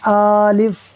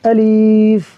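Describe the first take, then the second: First: The first vowel is drawn out long. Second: The second vowel is drawn out long. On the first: "यानी या तो हमज़ा को खींच देंगे, आलिफ़ कर देंगे" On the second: "या फिर कर देंगे अलीफ़, लाम को खींच देंगे"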